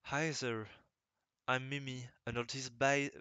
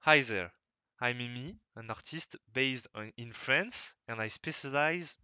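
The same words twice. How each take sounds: First: English read with a thick French accent; first halting take of a rusty English self-introduction. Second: Second, more careful retake of the English self-introduction; careful French accent English. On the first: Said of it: "mon anglais est rouillé". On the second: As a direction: try hard to pronounce the English properly, French accent still heard. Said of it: "faut que je dise bien". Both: Shown as a demonstration.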